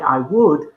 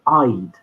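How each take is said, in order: First: Both words are said separately and in full. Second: The two words merge into one short syllable. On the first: The speaker calls it wrong. "don't say I would" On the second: The speaker calls it right. "but I'd"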